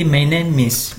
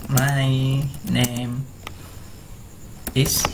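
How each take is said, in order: First: My name is run together as my na-mis; linked my-na-mis, no break; linked speech. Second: My name is, each word separate with long pauses; unlinked, halting My name is; words kept apart. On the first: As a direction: join the M of name onto is. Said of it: "M bertemu dengan I jadi miss". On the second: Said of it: "orang selalu mengatakan". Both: Shown as a demonstration.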